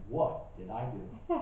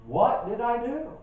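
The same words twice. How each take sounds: First: Soft, slow, chuckling through it; half laughing at the hurt question; laughing spouse. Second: Higher, slow wounded question; hurt spouse. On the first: Spouse puzzled by the outburst, laughing quietly. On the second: Spouse wondering why she was yelled at, higher. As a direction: sound baffled and wronged. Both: Retold or imitated. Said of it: "my spouse was wondering".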